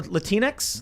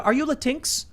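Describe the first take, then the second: First: Put-on higher, questioning "Latinx" as la-TEEN-ex; "Latinx" with a long ee and a separate ex. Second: High-pitched caller saying "Latinx" as la-TINKS; "Latinx" run together to rhyme with "thinks". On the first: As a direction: say "Latinx" in three syllables, la-TEEN-ex. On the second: Acted. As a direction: say "Latinx" in two syllables, la-TINKS. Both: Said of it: "start making phone calls".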